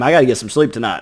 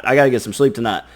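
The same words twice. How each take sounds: First: Said in the usual way. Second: Rushed, fast insistence; hurried repeat. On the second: Retold or imitated. Person insisting to themselves they must sleep, rushed. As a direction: hurry it out, pleading with yourself. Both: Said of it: "you're like".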